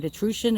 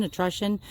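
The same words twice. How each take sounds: First: Etrusion with the middle vowel as in "true"; long OO in Etrusion. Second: Etrusion with the middle vowel as in "rush"; short U in etrusion. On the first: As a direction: say Etrusion as "uh-TROO-shun". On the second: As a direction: say etrusion as "uh-TRUSH-un", a little quieter. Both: Shown as a demonstration. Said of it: "pronounced that right".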